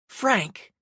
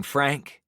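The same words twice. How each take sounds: First: Huffed out of breath. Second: Said in the usual way. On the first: A narrator's reading. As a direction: puff the name out winded. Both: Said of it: "she huffed".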